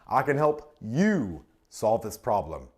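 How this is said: The stress falls on the word you. It is about the listener personally. "That makes it personal"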